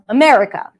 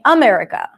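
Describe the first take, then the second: First: The main stress falls on the usual syllable. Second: The main stress falls on an unusual syllable. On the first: The speaker calls it right. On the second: The speaker calls it wrong.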